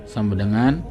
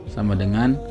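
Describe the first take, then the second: The two takes are said the same way.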